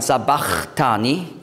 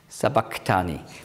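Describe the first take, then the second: First: The middle consonant is a breathy ch sound. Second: The middle consonant is a hard k sound. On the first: "viele sagen sabachthani" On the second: "hat man früher ausgesprochen als K"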